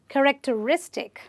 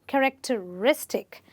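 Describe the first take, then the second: No difference in how they are said.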